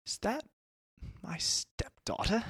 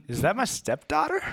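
First: Put-on high, slow, softer British accent; accidental British. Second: Put-on high-pitched startled question in own accent; dramatic disbelief. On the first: Stepdad spots the kidnapping, suddenly British. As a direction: slip into British, drawing out the question. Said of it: "that was British". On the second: Stepdad spots the kidnapping, high dramatic disbelief. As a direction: redo it in American, rising in alarm. Redoes the line without British accent.

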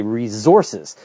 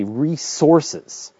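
First: "resources" with a z, ree-zources; Canadian pronunciation. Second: "resources" with a sharp s, ree-sources; American pronunciation. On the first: Host showing how Canadians say "resources", z sound. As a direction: say "resources" as ree-ZORE-sez with a z. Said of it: "Canadians say resources". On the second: Host showing how Americans say "resources", s sound. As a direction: say "resources" as ree-SORE-sez with an s. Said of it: "Americans say resources". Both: Shown as a demonstration.

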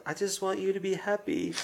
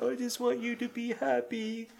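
First: Put-on pleading child. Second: High, sneering mimicry of a child; mock him back in a cruel, high voice; mocking imitation. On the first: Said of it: "he's just like". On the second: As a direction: cruel parroting of a boy. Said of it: "she starts to mock him too".

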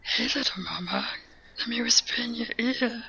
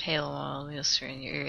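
First: Whispery character impression; hushed, breath-only creature voice; Yoda. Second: Very soft, low mock whisper; hushed, low imitation; imitated whisper. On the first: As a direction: whisper it very softly in a put-on sage voice. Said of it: "Can you do Yoda saying". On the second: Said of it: "if you whispered".

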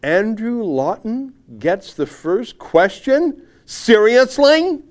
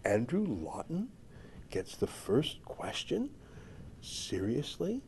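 First: Loud, slow incredulous read, pitched high; mock outrage. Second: Soft, slow incredulous questions; hushed disbelief. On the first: Host reading a columnist's snobbish tweet aloud, mock outraged. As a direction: read it out aghast, hitting each phrase hard. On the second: Acted. Host rereading the snobbish tweet aloud, quietly incredulous.

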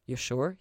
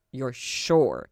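First: Said in the usual way. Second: Louder, grave wary check. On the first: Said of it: "he repeated". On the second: A narrator's reading. Lucifer checking Ella wants to see his wings, wary. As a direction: make her really think about it. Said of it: "warily enough that Ella paused".

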